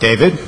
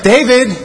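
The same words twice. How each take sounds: First: It is called in a stern, warning tone. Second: It is called in a sweet, inviting tone.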